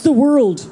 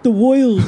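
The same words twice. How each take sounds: First: It is said in the speaker's plain accent. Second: It is said in an imitated New York accent.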